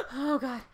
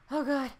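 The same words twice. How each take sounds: The two takes are said the same way.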